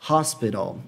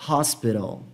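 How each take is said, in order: No difference in how they are said.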